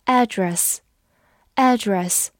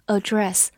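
First: "address" with the stress up front, AD-dress; stress on first syllable. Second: "address" with the stress at the back, a-DRESS; stress on second syllable. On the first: Teacher showing the American pronunciation, "address" stressed on AD. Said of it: "重音放在第一个音上了". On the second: Teacher showing the verb form, "address" stressed on DRESS. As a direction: hit the last syllable of "address". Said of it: "重音在后面". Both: Shown as a demonstration.

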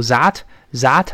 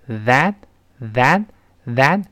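First: That said with a z sound and no tongue out; wrong that. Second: That with the tongue tip out and pulled back; slow that with the tongue shown between the teeth; correct th. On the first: Teacher imitates the wrong, tongue-in that. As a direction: say that as zat, the mistake to avoid. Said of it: "不要读that，that不对". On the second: Teacher shows the right th in that, slowly. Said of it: "舌尖吐出来往回一缩". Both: Shown as a demonstration.

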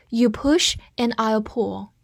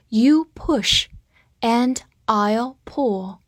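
First: Said in the usual way. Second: Slow, broken into short chunks with pauses; read-along model. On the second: Shown as a demonstration. Teacher having students repeat the sentence, slow read-along. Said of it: "好，跟我把句子再读一遍".

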